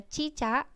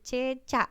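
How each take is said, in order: First: The first vowel is an i sound. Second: The first vowel is an e sound. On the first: The speaker calls it wrong. "Tidak bakunya cicak" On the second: The speaker calls it right. "Kata bakunya tertulis dengan e"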